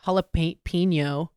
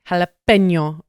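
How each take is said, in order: First: It is said with an English pronunciation. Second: It is said with a Spanish pronunciation. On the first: The speaker calls it wrong. "just butchering a Spanish word like" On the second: The speaker calls it right. "I really try to pronounce things right"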